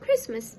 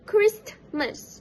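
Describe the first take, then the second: First: No t sound is heard between s and m. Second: A t sound is heard between s and m. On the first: "The t sound between the s and m sound was omitted" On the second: "The standard form of pronunciation for this word is Christmas"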